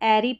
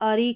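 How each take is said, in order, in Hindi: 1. अंत 'eh' स्वर से शुरू होता है। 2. अंत 'uh' स्वर से शुरू होता है। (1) "चाहे इसको एरी पढ़ें" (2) "या अरी करके दोनों प्रोनाउंसिएशन होंगे"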